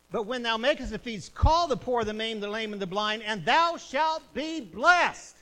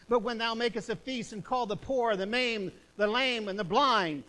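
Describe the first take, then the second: First: Louder, hammering repeat of "call the poor"; thundering repeat. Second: Loud, preached Bible verse; forceful scripture reading. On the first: Preacher repeating the verse to the church, even louder. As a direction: pound the verse home. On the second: Preacher reading Luke to the congregation, declaiming. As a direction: proclaim the verse to the church. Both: Acted.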